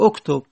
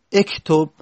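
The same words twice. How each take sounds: First: اکتب said "oktob", opening on short "o"; "oktob", with damme on the first letter of اکتب; damme on alif. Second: اکتب said "ektob", opening on short "e"; "ektob", with kasre on the first letter of اکتب; kasre on alif. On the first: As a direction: start اکتب with a rounded "o" sound. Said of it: "دمه دادیم". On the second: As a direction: start اکتب with an "e" instead of "o". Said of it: "چرا کسره ندادیم". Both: Shown as a demonstration.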